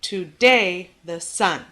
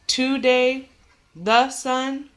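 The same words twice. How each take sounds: First: "Today the sun" slowly, DAY and SUN punched; stress on DAY, SUN. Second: "Today" with TO- stressed, higher, then a higher "the"; wrong-footed meter: TO-day THE sun; stress on first syllable. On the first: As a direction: iambic beat: to-DAY the SUN. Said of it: "wherever you put the emphasis on". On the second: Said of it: "Think about how you would say this". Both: Shown as a demonstration.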